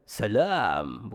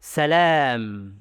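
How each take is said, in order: First: Slow, low "salam" swallowed into the throat. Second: "Salam" with a long, open a sent out through the mouth; released voice. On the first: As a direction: push "salam" back into the throat, lower. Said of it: "Suara tenggorokan". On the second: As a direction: let "Salam" ring out freely. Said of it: "Lepas suara". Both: Shown as a demonstration.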